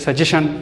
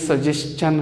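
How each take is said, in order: First: The ending is said with a 'shun' sound. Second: The ending is said with a 'chun' sound. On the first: The speaker calls it wrong. "ये लोग pronounce करते हैं कि सजेशन" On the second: The speaker calls it right. "टी आई ओ एन की आवाज़ शन नहीं होती बल्कि चन होती है"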